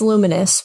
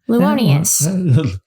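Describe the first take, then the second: First: The name ends in a short plain '-nous'. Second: The name ends in a stretched '-nious'. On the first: This is the expected name. "I think it's Luminous" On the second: This is a silly variant of the name. "this goofy like pronunciation"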